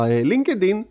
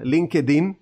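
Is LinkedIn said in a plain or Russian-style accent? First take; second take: Russian-style; plain. First: The word is said with a Russian-style accent. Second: The word is said with a plain local accent.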